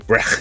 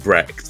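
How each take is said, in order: First: The name is said with a German accent. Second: The name is said with an English accent. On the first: It shows off that they speak the language. "they just go Brecht" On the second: It is the ordinary way to say it. "instead of saying Brecht"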